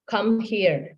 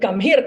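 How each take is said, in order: First: It is said in a calm, even voice. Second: It is said in a loud, angry voice. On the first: The parent is keeping control and staying consistent. The speaker calls it right. "Una maayos daw yung sabi niya" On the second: The parent has lost patience and is reacting. The speaker calls it wrong. "siya na daw ang nagwala"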